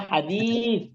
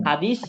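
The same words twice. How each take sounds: First: হাদিস slowed, its সা with the tongue on the teeth like Arabic ث; correct th sound. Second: হাদিস ending in a plain s; wrong plain s. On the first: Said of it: "শুদ্ধ উচ্চারণ হচ্ছে হাদিস". (শুদ্ধ উচ্চারণে ধীরে হাদিস) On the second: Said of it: "হাদিস বললে ভুল হবে". (ভুল উচ্চারণে হাদিস) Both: Shown as a demonstration.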